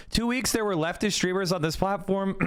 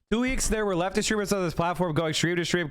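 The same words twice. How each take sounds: First: Strained, fading voice; losing voice. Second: Said in the usual way. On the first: Real, not acted. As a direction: voice giving out. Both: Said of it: "I'm losing my voice".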